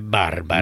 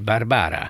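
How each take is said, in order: First: The stress is on the first syllable. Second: The stress is on the second syllable. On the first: This is how the name is said across the rest of Europe. The speaker calls it right. "egész Európában egyébként ugye" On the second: This is how the name is said in one particular language. The speaker calls it wrong. "legnagyobb felháborodásomra úgy mondják"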